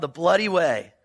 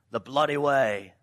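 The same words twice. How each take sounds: First: Said in the usual way. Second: Mock English accent, lower pitched. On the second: Shown as a demonstration. Preacher giving the road's nickname to the congregation, in an English accent. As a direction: put on an English accent for the phrase. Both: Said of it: "say it in an English accent".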